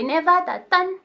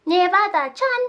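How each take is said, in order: First: Put-on high childlike "Nevada-tan", t in place of ch; child's mispronunciation. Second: High-pitched "Nevada-chan" with a ch sound; standard chan ending. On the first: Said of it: "a child will say Nevada-tan". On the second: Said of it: "being a way a child would pronounce Chan". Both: Shown as a demonstration.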